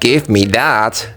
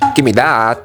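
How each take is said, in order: First: 'Give' and 'me' are said as separate words. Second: 'Give me' is blended into one short word. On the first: It is clear, careful speech. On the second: It is casual, lazy speech.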